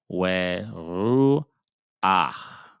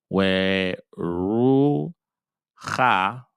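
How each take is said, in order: First: The a vowel comes before the final h. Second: The final h comes before the a vowel. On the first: The speaker calls it right. "we're going to say where ru ah" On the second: The speaker calls it wrong. "instead of saying where ru ha"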